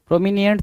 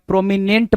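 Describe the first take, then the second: First: Pro-mi-ni-ENT, extra syllable; misread prominent. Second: Pro-mi-NENT, three syllables; correct prominent. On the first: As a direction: say प्रोमिनेंट as "pro-mi-nee-ent". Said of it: "तो बताया नहीं मैंने आपको". (प्रोमिनेंट को "प्रोमिनिएंट" बोलें) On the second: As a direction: say प्रोमिनेंट ending in plain "nent". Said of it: "प्रोमिनेंट बताया है". (प्रोमिनेंट में सीधा "नेंट" बोलें) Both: Shown as a demonstration.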